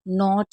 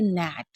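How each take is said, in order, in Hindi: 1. स्वर 'not' जैसा सुनाई देता है। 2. स्वर 'cat' जैसा सुनाई देता है। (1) "नॉट नहीं पढ़ेंगे" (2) "इसे क्या पढ़ेंगे, नैट"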